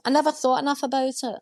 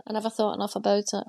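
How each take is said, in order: First: Higher take. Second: Said in the usual way. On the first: Shown as a demonstration. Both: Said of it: "repeated take".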